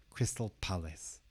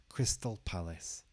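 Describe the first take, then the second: No difference in how they are said.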